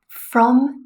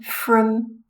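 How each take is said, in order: First: The word is said with a full vowel. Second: The word is said with a schwa vowel. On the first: "From is a strong form" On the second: "from with the schwa is a weak form"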